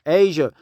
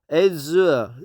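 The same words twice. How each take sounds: First: The middle consonant is a soft zh sound. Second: The middle consonant is a plain z sound. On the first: The speaker calls it right. "not a Z sound, but more like a J" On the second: The speaker calls it wrong. "If it's a Z sound, it should be"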